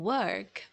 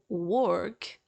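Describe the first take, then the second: First: The vowel sounds like a neutral uh. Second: The vowel sounds like a rounded o. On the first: The speaker calls it right. "instead you will say ... and work" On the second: The speaker calls it wrong. "you won't say word or world or work"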